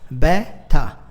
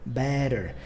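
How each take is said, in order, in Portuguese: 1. É pronunciado com sotaque britânico. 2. É pronunciado com sotaque americano. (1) "E um britânico, né, geralmente a própria rainha fazia assim" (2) "Em inglês americano a gente costuma dizer better"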